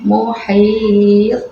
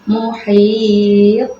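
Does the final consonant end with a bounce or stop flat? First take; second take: bounce; bounce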